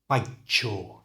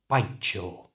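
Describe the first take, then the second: First: The t and y merge into ch. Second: The same.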